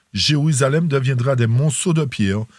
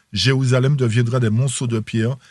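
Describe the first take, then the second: No difference in how they are said.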